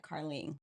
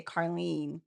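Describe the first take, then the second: First: "Carlene" ending in ng, "Carling"; short i and ng at the end of "Carlene"; as misheard. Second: "Carlene" with long ee and final n; speaker's own way. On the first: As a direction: say "Carlene" as "car-ling". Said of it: "it sounded like Carlene". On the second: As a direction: say "Carlene" as "car-LEEN". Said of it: "when I say Carlene". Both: Shown as a demonstration.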